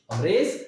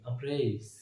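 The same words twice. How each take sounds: First: Said in the usual way. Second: Soft, gentle अमरेज; said softly. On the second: Shown as a demonstration. (अमरेज को धीरे और नरमी से बोलें) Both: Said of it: "softly बोलेंगे हर word को".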